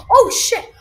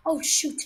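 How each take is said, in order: First: Loud startled swear; startled yell. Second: Said in the usual way. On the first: Real, not acted. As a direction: blurt it out in fright. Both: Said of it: "sorry, I swore".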